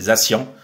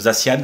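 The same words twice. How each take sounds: First: The name is said with the 'cyan' sound. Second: The name is said without the 'cyan' sound. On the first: The speaker calls it right. "c'est Zacian. Cyan comme la couleur cyan" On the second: The speaker calls it wrong. "beaucoup prononcent Zacian"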